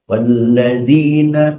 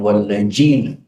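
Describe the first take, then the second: First: The middle consonant is a soft 'dh' sound. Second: The middle consonant is a 'j' sound. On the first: The speaker calls it right. "za makhrajnya di ujung lidah" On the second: The speaker calls it wrong. "Jangan dibaca wallajina"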